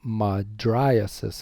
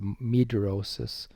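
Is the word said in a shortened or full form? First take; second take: full; shortened. First: The middle vowels are said as separate syllables. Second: The middle vowels are squeezed into one syllable. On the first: The speaker calls it right. "is the best way to pronounce that" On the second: The speaker calls it wrong. "or I call it mydrosis"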